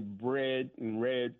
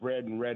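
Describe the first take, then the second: First: The words are said in a mid-Southern accent. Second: The words are said without a mid-Southern accent. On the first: "I sort of inherited a mid-Southern accent. I would say" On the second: "instead of"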